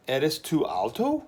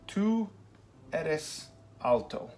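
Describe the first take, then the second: First: Slow, voice rising on alto; rising question tune. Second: Slow, falling on eres alto; flat statement tune. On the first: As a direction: lift the end like a question. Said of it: "your voice goes up at the end". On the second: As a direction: say it as a plain statement. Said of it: "That's our statement". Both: Shown as a demonstration.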